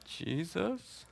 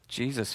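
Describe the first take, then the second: First: "Jesus" softly lifted into a question. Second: Said in the usual way. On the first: Retold or imitated. Sunday school student answering the teacher, "Jesus" said as a question. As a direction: say "Jesus" quietly with a rising, unsure end. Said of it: "say it like it's a question". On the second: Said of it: "don't have to say it like it's a question".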